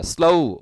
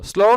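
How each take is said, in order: First: "স্লো" gliding to "slou"; diphthong o. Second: "স্লো" with a plain, unglided o; wrong vowel. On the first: Teacher gives learners the correct sound, gliding "ou" in "স্লো". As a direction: say "স্লো" with o sliding into u. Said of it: "ও উচ্চারণ হবে". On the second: Teacher warns learners off the wrong sound, pure o in "স্লো". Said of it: "স্লো না". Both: Shown as a demonstration.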